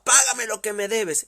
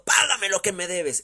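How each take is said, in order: First: Louder, higher furious demand; angry demand. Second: Loud, raised demanding shout; harsh demand. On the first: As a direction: shout it, grabbing him by the throat. Repeated violent demand. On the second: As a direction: bark the demand for payment. Servant demanding debt violently. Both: Acted.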